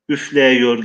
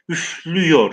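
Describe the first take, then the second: First: The vowel after the f stays an open e. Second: The vowel after the f is a narrowed ü. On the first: This is the older or regional form. "bu ünlü daralması yapılmadan telaffuz yapılıyor" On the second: This is how the word is read today. "Şu an biz üflüyor diye okuyoruz. Burada ünlü daralması oluyor"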